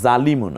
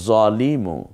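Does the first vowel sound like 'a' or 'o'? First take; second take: a; o. First: The first vowel is a clear open a. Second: The first vowel is a darker, rounded o. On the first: The speaker calls it wrong. "তাহলে জালিমু না" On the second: The speaker calls it right. "হবে জলিমু"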